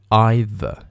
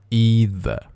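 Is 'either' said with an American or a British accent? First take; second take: British; American. First: It is said with a British accent. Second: It is said with an American accent.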